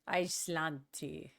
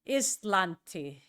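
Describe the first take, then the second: First: It is said with an American-sounding pronunciation. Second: It is said with a Finnish-sounding pronunciation. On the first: The speaker calls it wrong. "the first time I was saying it, I sounded like an American" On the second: The speaker calls it right. "So it's Islanti"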